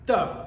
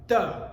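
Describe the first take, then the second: First: The T is soft, almost like a D. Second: The T is soft, almost like a D.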